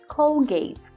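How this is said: The word has an English pronunciation.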